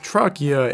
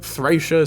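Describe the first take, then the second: First: The word begins with a plain T sound. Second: The word begins with a TH sound. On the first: The speaker calls it wrong. "I assumed based on this information that it would be pronounced Trakia in English" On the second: The speaker calls it right. "they pronounce it Thracia"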